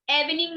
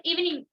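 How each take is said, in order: First: इवनिंग opened with a short "eh". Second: इवनिंग opened with "ee", higher pitch; long E in इवनिंग. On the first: Teacher shows students what we don't say, short "eh" in इवनिंग. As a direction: say इवनिंग as "EV-ning". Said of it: "इवनिंग नहीं बोलते हैं ना". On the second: Teacher models the right way, long "ee" starting इवनिंग. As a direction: say इवनिंग as "EEV-ning". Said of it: "long sound बोलते हैं". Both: Shown as a demonstration.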